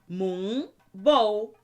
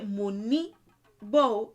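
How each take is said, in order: First: The n is a syllable with no vowel. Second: The n is followed by an added vowel. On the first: The speaker calls it right. "So n is how you pronounce it" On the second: The speaker calls it wrong. "You won't say"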